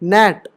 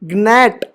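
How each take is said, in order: First: The g is silent; it starts with n. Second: The g is sounded before the n. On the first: The speaker calls it right. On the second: The speaker calls it wrong.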